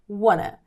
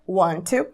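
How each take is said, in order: First: The words merge into one reduced word. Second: Two separate words with a clear t. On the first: "você pode unir as duas palavras" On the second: "apesar da forma escrita, é, tem que ser assim"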